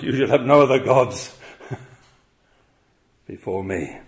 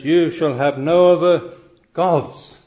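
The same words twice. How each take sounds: First: Said in the usual way. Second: "gods" slow, leaning on the plural ending; "You shall have no other gods", weighing each word slowly; stress on gods plural. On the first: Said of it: "the words of this first commandment". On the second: Shown as a demonstration. Preacher reading the commandment to his congregation, slow and stressed. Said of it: "plural, not God singular".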